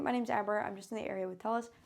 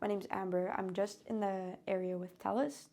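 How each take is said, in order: First: The voice is pitched relatively high. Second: The voice is pitched noticeably lower. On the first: It sounds like a sales pitch. The speaker calls it wrong. "I wouldn't be like" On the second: It sounds less like a sales pitch. The speaker calls it right. "I purposefully lowered my pitch a little bit"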